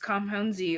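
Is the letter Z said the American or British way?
American. The letter Z is said the American way.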